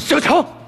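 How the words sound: It is said in a tough-guy voice.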